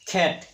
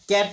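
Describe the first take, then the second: First: The first consonant has a strong puff of air. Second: The first consonant has no puff of air. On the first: The speaker calls it right. "এইটো ক নহয় ... খেট" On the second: The speaker calls it wrong. "কেট নহয়"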